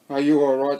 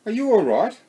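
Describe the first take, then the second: First: Thought to himself, not asked; inner thought. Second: Said in the usual way. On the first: A narrator's reading. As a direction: echo the question in his head. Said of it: "Sandy thought". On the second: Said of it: "and he asked".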